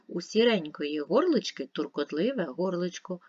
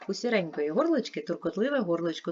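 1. Читається швидше. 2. Читається найшвидше. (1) "Швидше" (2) "Швидше"

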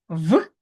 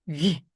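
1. Приголосний твердий, не пом'якшений. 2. Приголосний м'який, пом'якшений. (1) "в твердий" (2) "М'який, пом'якшений"

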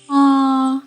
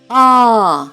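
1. Голосний звук вимовляють тихо. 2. Голосний звук вимовляють голосно. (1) "Мавпиня тихо" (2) "Мавпа кричить голосно"

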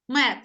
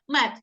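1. Кінцевий приголосний звучить як глухий т. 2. Кінцевий приголосний звучить як глухий т.

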